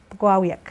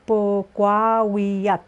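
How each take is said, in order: First: Said in the usual way. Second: Pogwawiak slowly, each syllable apart; slow teacher model of Pogwawiak. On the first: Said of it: "the way they would say it". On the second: Shown as a demonstration. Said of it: "syllable by syllable".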